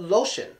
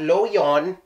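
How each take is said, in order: First: The middle consonant is a clear 'sh' sound. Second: The middle consonant is a stop, not 'sh'. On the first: The speaker calls it right. "but lotion" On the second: The speaker calls it wrong. "Not loyon"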